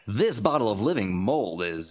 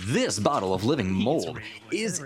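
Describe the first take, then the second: First: It is spoken like a nature documentary narrator. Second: It is spoken in a radio announcer voice. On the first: "You're going to get David Attenborough instead" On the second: "little radio voice in your head"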